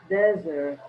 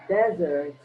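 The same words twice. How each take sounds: The two takes are said the same way.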